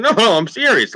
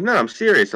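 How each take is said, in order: First: Higher, pleading insistence; insisting harder. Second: Higher earnest plea; insisting. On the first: Still convincing his friends he means it, higher and pleading. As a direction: beg them to believe you. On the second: Convincing the guys in the car he has never seen cows, higher and pleading. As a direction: insist it's true. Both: Retold or imitated. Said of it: "I'm like".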